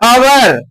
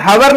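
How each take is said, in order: First: The word begins directly with a vowel. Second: The word begins with an h sound. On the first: The speaker calls it right. "क्या कह रहे हैं? अवर" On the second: The speaker calls it wrong. "इसको हम हवर नहीं कह रहे हैं"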